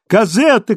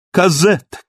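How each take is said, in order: First: Much higher, louder second cry; louder call. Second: Raised call across the garden. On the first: Marius calling again across the garden, higher and louder. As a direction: call again, more desperate. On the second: Marius rushing into the garden, first urgent call. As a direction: call her name urgently. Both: Acted. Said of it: "кричал он".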